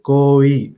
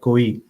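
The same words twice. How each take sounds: First: The vowel is drawn out long. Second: The vowel is kept short. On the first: The speaker calls it right. "Isko lamba paro ... say it like this" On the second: The speaker calls it wrong. "I said it quite short, like koi, and I didn't prolong it"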